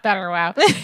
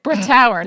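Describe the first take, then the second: First: The name sounds like 'Betterwow'. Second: The name sounds like 'Brittower'. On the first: The speaker calls it wrong. "not Betterwow" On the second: The speaker calls it right. "That is not how you say it. Brittower"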